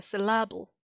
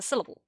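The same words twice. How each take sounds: First: Syllable said "suh-LAB-ul"; wrong stress. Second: Syllable said "SIL-uh-bul"; syllable as SIL-uh-bul, the standard way; correct stress. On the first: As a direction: stress the middle of syllable, with a short A as in cat. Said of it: "it's certainly not a syllable". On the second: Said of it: "the stress is on the syl". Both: Shown as a demonstration.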